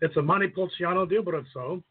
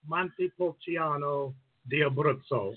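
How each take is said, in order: First: It is said at normal speed. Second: It is said slowly.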